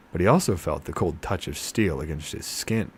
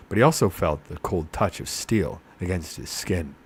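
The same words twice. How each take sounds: The two takes are said the same way.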